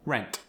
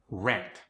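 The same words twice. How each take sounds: First: South African "rent" with a strong final T; South African accent. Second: Said in the usual way. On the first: Shown as a demonstration. Teaching the strong T, South African "rent". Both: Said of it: "you get a strong T".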